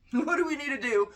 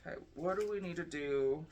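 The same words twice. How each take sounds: First: Much higher and louder, mock-dramatic plea; dramatic repeated question. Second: Said in the usual way. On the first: Shown as a demonstration. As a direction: ask the cards in hammed-up alarm. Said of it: "same question again". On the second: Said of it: "asks it again".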